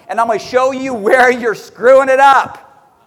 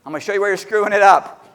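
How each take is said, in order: First: Slow emphatic warning. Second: Fast throwaway repeat. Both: Shown as a demonstration. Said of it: "repeats line".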